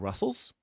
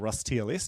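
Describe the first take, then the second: First: It is said as one word, like Russell's. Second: It is said as Rust followed by spelled-out letters. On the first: "he pronounces it Russell's, so I so do" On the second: "depending on where you are uh, from"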